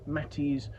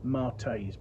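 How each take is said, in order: First: The name is said with two syllables, like 'Matties'. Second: The name is said with two syllables, like 'Martays'. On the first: The speaker calls it right. "the name is pronounced Matty's" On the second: The speaker calls it wrong. "I have heard people say Martays"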